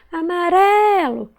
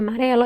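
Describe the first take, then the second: First: "amarelo" called out high with a long RE; stretched stressed syllable. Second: Said in the usual way. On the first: Shown as a demonstration. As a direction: hold the RE in "amarelo". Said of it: "Qual que eu demorei mais falar". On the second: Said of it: "Vamos chamar a palavrinha amarelo".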